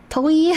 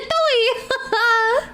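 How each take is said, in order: First: Said in the usual way. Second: Toei! laughed out with a rising pitch; Toei, burst out mid-laugh. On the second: Real, not acted. Repeating the odd word, laughing.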